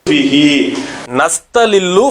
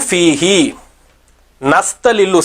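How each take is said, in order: Both takes have the same delivery.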